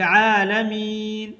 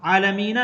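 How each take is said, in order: First: आलमीन drawn out slowly, ending silent on n; आलमीन पर रुकना; stopping form. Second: आलमीना with a sounded final a; आलमीना, गलत अंत; wrong ending shown. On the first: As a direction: stop cleanly on आलमीन, no vowel after n. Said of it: "बल्कि आलमीन". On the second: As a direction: say आलमीना with the extra vowel at the end. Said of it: "आलमीना नहीं पढ़ा". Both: Shown as a demonstration.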